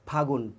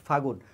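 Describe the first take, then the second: The two takes are said the same way.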